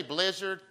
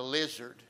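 First: Said in the usual way. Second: "lizard" said for blizzard, opening B dropped; child's mispronunciation. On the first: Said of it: "she can't say blizzard". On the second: Retold or imitated. Grandfather quoting granddaughter's Dairy Queen order, "lizard" without the B. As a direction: imitate a small child saying "lizard", no B sound. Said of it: "she calls it a lizard".

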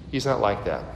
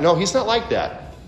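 First: Quiet. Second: Said in the usual way. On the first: Shown as a demonstration.

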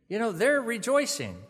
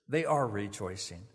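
First: Much higher and louder, mock-cheery reassurance; put-on cheerful insistence, pitched up; imitated upbeat consoler. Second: Said in the usual way. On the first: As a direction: mimic a chirpy platitude to a mourner. Voices the platitude, then concedes it himself.

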